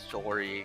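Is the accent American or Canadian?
Canadian. It is said in a Canadian accent.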